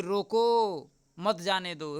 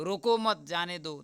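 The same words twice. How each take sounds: First: "रोको", clear pause, then "मत जाने दो"; pause after रोको. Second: "रोको मत" joined, then "जाने दो"; group it as रोको मत, जाने दो; pause after मत. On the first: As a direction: break right after रोको to make it mean stop. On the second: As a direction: keep रोको and मत together, no break after रोको. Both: Shown as a demonstration. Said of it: "विराम चिन्ह का सही से इस्तेमाल".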